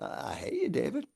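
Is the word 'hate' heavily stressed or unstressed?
unstressed. The word hate carries no heavy energy.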